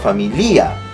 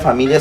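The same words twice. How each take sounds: First: The stress falls on the syllable li. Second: The stress falls on the syllable mi. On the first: The speaker calls it wrong. "Si yo me estuviera obligado a poner una tilde" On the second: The speaker calls it right. "La fuerza está en mí"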